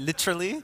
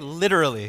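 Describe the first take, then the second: First: It is said in a Toronto accent. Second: It is said in the speaker's usual accent.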